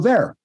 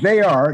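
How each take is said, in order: First: The two words are contracted into one syllable. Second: Both words are said in full, uncontracted. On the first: The reader changed the written words. The speaker calls it wrong. "you go there" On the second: This is what the text says. The speaker calls it right. "Instead of saying they are"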